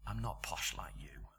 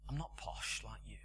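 First: Whispered "I'm not posh like you", low and breathless; preacher whispering the woman's words to the congregation. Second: Soft, lower repeat of her line; preacher quietly recalling the old lady's words; soft echo of her words. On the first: Shown as a demonstration. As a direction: breathe "posh" barely voiced, lower than before. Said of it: "whispered repeat of the line". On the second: Retold or imitated. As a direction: replay "I'm not posh like you" quietly, thinking it over. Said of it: "thought about her a bit".

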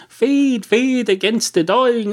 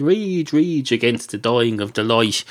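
First: High, dramatic recital of the misquoted line; mock poem recital. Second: Poem recital. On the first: Comedian misquoting the poet, dramatic high recital. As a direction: declaim the botched line loftily, slowed down. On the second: Retold or imitated. Comedian correcting the poet's line, recited plainly. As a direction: deliver the real line, falling back to normal pitch.

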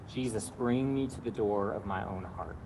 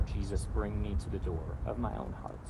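First: Quiet, slow whole prayer; slow breath prayer. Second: Softer, slower prayer; slow breath prayer. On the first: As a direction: say it slowly and softly. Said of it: "the breath prayer is simply this". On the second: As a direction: pray it quietly with them. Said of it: "I'll invite you to pray that prayer". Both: Shown as a demonstration.

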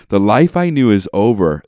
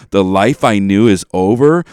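First: Repeated line, just as heavy and loud; hammed-up tragic reading with weight on "I"; mock-solemn re-read; dramatic lyric recitation. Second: Swelling loud on the final line; over-the-top tragic pronouncement of "over"; mock-solemn climax, louder; dramatic lyric recitation. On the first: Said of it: "it's so intense". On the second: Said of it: "she starts saying this".

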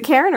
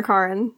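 First: "Karen" with an "air" first vowel; first-vowel pronunciation. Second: "Karen" with an "ah" first vowel; alternative pronunciation. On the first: Asking co-hosts how the director's name is said, "Karen" with an "air" vowel. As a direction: say "Karen" to rhyme with "Sharon". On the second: Offering co-hosts the other name option, "Karen" said "KAH-ren". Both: Shown as a demonstration. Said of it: "Is it Karen or Karen".

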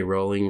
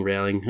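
First: "Rowling" said like the word rolling; trying a pronunciation. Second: "Rowling" rhyming with howling; trying the alternative pronunciation. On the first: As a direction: give "Rowling" a long "oh" vowel. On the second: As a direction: give "Rowling" an "ow" as in cow. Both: Shown as a demonstration. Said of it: "Is it Rowling or Rowling?".

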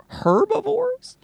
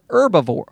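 First: HERBIVORES very slow and high, h sounded, swooping upward; mock puzzled question. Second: Said in the usual way. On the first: Podcaster toying with the word herbivores, very high, drawn-out mock question. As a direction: stretch "Herbivores" with an audible h into a squeaky question.

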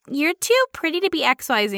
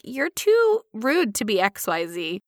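First: Mock compliment leaning on TOO; imitated gushy remark, TOO stressed; imitated backhanded compliment. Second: Slow, deliberate comeback with TOO drawn out; measured, snarky echo; slow retort. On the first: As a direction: say "TOO pretty" like a clueless flatterer. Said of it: "Like I said earlier". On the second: Shown as a demonstration. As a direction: echo it back slowly, leaning on TOO rude. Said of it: "I'm like".

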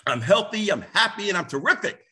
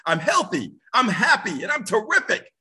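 First: Said in the usual way. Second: Rising, louder, energetic affirmation; with energy. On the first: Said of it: "he would tell people to say this". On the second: Shown as a demonstration. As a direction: say it like you mean it. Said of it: "say it with energy ... say it like you mean it".

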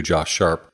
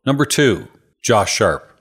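First: Said in the usual way. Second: Punchy game show announcement; announcer voice. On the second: Pretend. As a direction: announce the name like a host. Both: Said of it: "I just wanted to say number two".

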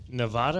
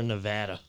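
First: Nevada with a broad "ah" middle, nuh-VAH-duh. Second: Nevada with a flat "a" as in "cat"; short a in Nevada. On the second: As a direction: say Nevada as nuh-VADD-uh. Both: Shown as a demonstration. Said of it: "Is it Nevada or Nevada?".

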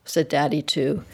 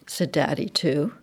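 Both takes have the same delivery.

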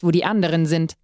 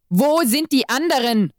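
First: Said in the usual way. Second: Angry demand, pitched higher; angry yell. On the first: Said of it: "fuhr er mich an". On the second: A narrator's reading. Exorcist demands answers from his captive, angry and higher. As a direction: bark the question in anger. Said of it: "schrie er mich wütend an".

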